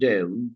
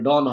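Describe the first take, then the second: First: The vowel glides like 'oh-oo' before n. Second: The vowel is a plain short o sound. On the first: The speaker calls it right. "এটা উচ্চারণ হবে ডেউন।" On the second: The speaker calls it wrong. "এটা ডন হবে না।"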